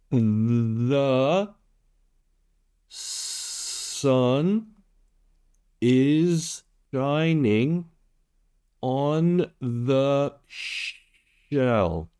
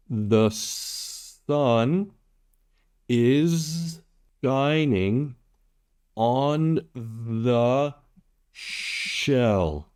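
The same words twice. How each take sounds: First: "is shining" and "on the shell" stretched out very slowly; very slow demo. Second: Each word spaced out, "shell" falling at the end; a first, steady read of the sentence; word by word demo. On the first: Tutor repeating number five much slower for learners, words drawn out. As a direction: drag every sound out so learners can follow. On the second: Tutor modelling number five for Vietnamese learners, words spaced apart. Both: Shown as a demonstration. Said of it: "One more time".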